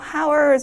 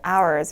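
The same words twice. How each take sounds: First: The word begins with an audible h sound. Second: The word begins with a vowel, no h. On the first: The speaker calls it wrong. "h가 들어있다고 해도 hours 이렇게 발음하시면 절대 안 되고" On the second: The speaker calls it right. "h는 묵음으로 hours 이렇게 발음해 주시면"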